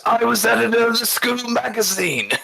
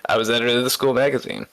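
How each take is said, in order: First: High, strained mock-defiant declaration; a rock singer impression. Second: A hint of a rock singer impression. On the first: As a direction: belt it out like a fist-raised confession from the crowd. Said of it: "raises his fist and he goes". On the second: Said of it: "go into my rock singer voice".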